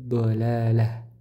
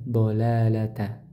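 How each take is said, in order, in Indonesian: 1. Kata itu berakhir dengan bunyi h mati. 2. Kata itu berakhir dengan bunyi t dan vokal. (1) "maka berubah jadi ha secara lafaz ... Jadi ha sukun" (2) "tak marbutah di sini secara lafaz dia dibaca karena disambung"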